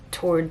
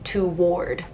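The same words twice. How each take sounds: First: The word is said without a W sound. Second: The word is said with a hard W sound. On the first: This is how most people say it. "T O A R D is the way that someone would pronounce it normally" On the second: This is how one coworker says it. "he would pronounce like a hard W"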